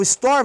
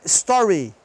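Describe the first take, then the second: First: "store" ending on r; silent final E. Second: "story" with a clear ee ending; voiced final Y. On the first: Teacher contrasting two words, silent E in "store". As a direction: stop "store" on the r. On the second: Teacher showing what the vowel changes, clear ee in "story". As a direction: sound a full ee at the end of "story". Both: Shown as a demonstration. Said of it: "senão vira Y".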